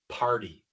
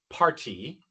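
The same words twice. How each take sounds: First: It is said in the American way. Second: It is said in a non-American way. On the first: The speaker calls it right. "sino party" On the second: The speaker calls it wrong. "En los Estados Unidos no decimos party"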